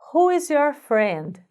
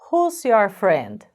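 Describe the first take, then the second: First: Every word is said fully and separately. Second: Words are reduced and run together.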